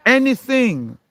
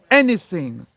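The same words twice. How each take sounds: First: Anything flung out higher and louder; emphatic repeat. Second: Said in the usual way. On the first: Real, not acted. Arguing with a doubter, repeating anything with a loud high push. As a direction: hammer the word anything home. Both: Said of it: "repeats word building emphasis".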